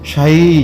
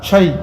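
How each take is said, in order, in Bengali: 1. স্বরটি টানা, দীর্ঘ। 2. স্বরটি হ্রস্ব, টানা নয়।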